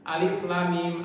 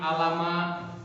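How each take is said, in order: First: Each letter name is said separately. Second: The letters are blended into one word. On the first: The speaker calls it right. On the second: The speaker calls it wrong.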